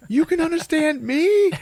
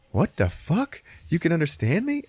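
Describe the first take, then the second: First: Loud, very high shriek; high, loud, over-the-top amazement; mock astonishment. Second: Higher, incredulous question; raised-pitch disbelief; astonished Barry. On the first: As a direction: shriek the question in comic disbelief. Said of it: "And he's like". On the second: Retold or imitated. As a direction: ask it in mild mock shock. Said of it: "Barry's like".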